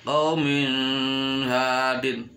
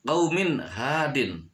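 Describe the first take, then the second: First: Sung, "qaumin hadin" droned with a long nasal n; very slow, hum from "qaumin" into "hadin"; sung, "qaumin hadin" on one held note, n stretched; wrong hummed reading. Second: "qaumin hadin" with a crisp short n; "qaumin hadin", no hum on the n; clear idhar reading. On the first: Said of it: "tidak boleh dibaca". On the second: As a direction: cut "qaumin" cleanly before "hadin". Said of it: "harus jelas". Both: Shown as a demonstration.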